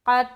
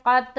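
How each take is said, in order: No difference in how they are said.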